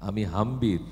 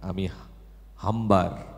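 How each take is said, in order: First: The second word ends with an 'ir' sound. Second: The second word ends with an 'ar' sound. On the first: The standard pronunciation. The speaker calls it right. "আমি হাম্বির হবে" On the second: A regional pull in pronunciation. The speaker calls it wrong. "উনি বলেছেন আমি হাম্বার"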